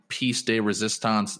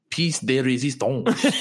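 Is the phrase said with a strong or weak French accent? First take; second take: weak; strong. First: It is said with a weak French accent. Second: It is said with a strong French accent. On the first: The speaker calls it wrong. "you gotta have your French accent better than that" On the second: The speaker calls it right. "There you go. Much better"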